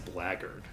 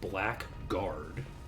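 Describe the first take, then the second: First: It is said as one reduced word, blaggard. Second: It is said as two full words, black guard. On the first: "typically pronounced as blackguard" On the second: "it's the two words together of blackguard"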